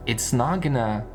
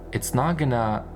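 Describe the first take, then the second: No difference in how they are said.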